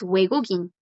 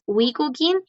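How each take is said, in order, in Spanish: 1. La primera sílaba suena como 'we'. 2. La primera sílaba suena como 'wi'. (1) "es Wegugin" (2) "No es Wigugin"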